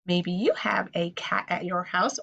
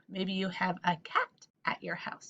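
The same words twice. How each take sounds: First: Said in the usual way. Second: Maybe you have a cat at your house breathed as a whisper; whispered repeat. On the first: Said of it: "same words repeated as whisper". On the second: Shown as a demonstration. Teacher repeats the cat line to kids as a soft whisper. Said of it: "whispered repeat".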